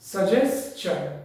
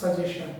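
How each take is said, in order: First: The ending is pronounced like the end of 'question'. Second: The ending is pronounced unlike the end of 'question'. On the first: The speaker calls it right. "তাহলে মানানো জিনিস হবে সাজেশন" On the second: The speaker calls it wrong. "Not সাজেশন"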